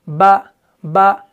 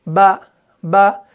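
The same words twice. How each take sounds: No difference in how they are said.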